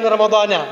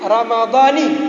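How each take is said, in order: First: The word ends with an a vowel. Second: The word ends with an i vowel. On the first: The speaker calls it right. "kan ramadhana" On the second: The speaker calls it wrong. "Nggak boleh dibaca Ramadhani"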